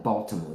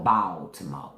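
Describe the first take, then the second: First: "Baltimore" with the usual first vowel; standard pronunciation. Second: "Baltimore" lower, with an open, drawn "Bal"; Southern pronunciation. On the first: Contrasting with family's Southern roots, standard "Baltimore". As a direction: say "Baltimore" with a rounded "awl" sound. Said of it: "they don't call it Baltimore". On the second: Showing how Southern family says it, drawled "Baltimore". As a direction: say "Baltimore" as Southern "Bahl-timo". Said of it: "that's my southern roots with my family". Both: Shown as a demonstration.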